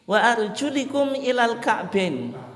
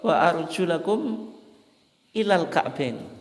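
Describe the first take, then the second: First: The vowel after the L is 'i'. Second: The vowel after the L is 'a'. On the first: The feet may be wiped, like the head. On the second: The feet are to be washed. "lamnya itu difathahkan"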